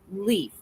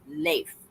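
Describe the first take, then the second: First: The name sounds exactly like the word 'leaf'. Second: The name sounds different from the word 'leaf'. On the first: The speaker calls it wrong. "it's not pronounced leaf" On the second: The speaker calls it right. "it's Leif"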